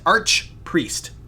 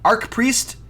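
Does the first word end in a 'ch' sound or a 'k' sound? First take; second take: ch sound; k sound. First: The first word ends with a ch sound. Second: The first word ends with a hard k sound. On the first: The speaker calls it right. "you're saying Arch" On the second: The speaker calls it wrong. "Another example of me mispronouncing crap"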